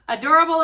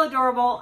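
First: Higher, louder gush of delight; real burst of delight; excited gush. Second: Said in the usual way. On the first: Real, not acted. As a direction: squeal it out over the bag. Gushing about the bag.

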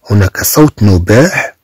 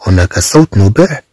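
The two takes are said the same way.

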